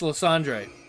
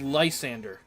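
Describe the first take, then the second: First: The name ends with an 'andre' sound. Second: The name ends with an 'ander' sound. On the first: The speaker calls it right. "And it's Lysandre" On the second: The speaker calls it wrong. "everyone says Lysander"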